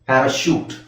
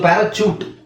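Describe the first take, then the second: First: The last syllable begins with a 'sh' sound. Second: The last syllable begins with a 'ch' sound. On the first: The speaker calls it right. "ಸಿ ಎಚ್ ನ ನಾವು ಶ ಅಂತ ಹೇಳ್ಬೇಕು" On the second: The speaker calls it wrong. "ಪ್ಯಾರಾಚೂಟ್ ಚೂಟ್ ಅಂತ ಹೇಳ್ತಾರೆ"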